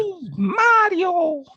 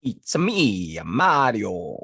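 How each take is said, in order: First: Very high, loud, drawn-out squeal; Mario. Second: Too-deep, botched cartoon plumber; Mario. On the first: Podcaster retrying a game hero, high cartoon voice. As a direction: leap high and stretch the name. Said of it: "That is closer". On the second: Podcaster attempting a game hero, too deep. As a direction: stretch it out, pitched too low. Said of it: "That was way too deep". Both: Shown as a demonstration.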